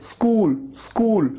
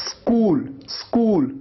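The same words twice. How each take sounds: Both takes have the same delivery.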